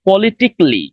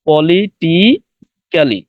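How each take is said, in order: First: The middle '-cal-' syllable is dropped entirely. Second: The middle '-cal-' syllable is pronounced fully. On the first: The speaker calls it right. "ক্যালি বলবো না" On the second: The speaker calls it wrong. "আবারও এরকম হয় যে"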